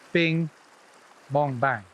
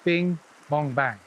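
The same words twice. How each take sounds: First: There is a long pause after bing. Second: There is a medium pause after bing. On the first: The mend lands right under the rod tip. "the mend right under the rod tip" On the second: The mend lands in the middle of the line. "closer to me, like the middle of the line"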